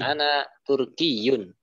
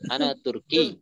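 First: The word ends with the full vowel ending. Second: The word ends without the vowel ending. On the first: "tidak diucapkan sampai ke harokat-harokatnya" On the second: "Cukup ana Turki"

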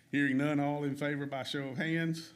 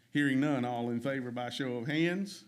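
Both takes have the same delivery.

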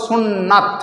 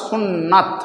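No difference in how they are said.

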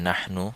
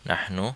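The two takes are said the same way.

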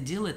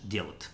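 First: Full standard form with the vowel kept. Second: Contracted northern form with the vowels merged.

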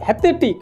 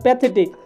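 First: The word begins with an h sound. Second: The word begins with a p sound. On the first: "হ্যাথেটিক মানে প্যাথেটিক" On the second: "মানে প্যাথেটিক"

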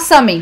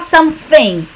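First: The word is said quickly in a reduced form. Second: The word is said fully with every sound clear. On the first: "Ela sempre fala something" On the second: "Ela não fala something"

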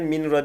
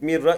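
First: The n is heard before the r. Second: The n merges fully into the r. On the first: The speaker calls it wrong. "minra değil artık" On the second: The speaker calls it right. "Mirra idgam bila gunne"

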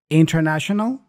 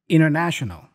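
First: The T after N is pronounced. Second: The T after N is dropped.

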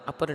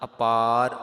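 First: The vowel after the p is short. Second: The vowel after the p is long. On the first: The speaker calls it wrong. "ਅਪਰ ਨਹੀਂ ਕਰ ਦੇਣਾ" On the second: The speaker calls it right. "ਅਪਾਰ ਪੱਪੇ ਨੂੰ ਕੰਨਾ ਹੈ"

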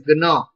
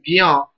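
First: The syllable is said with an n sound. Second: The syllable is said with a y sound. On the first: "as per their pronunciation, it is Gna" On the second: "some people are pronouncing as Gya"

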